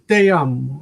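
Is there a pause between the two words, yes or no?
no. Te and amo are joined without a pause.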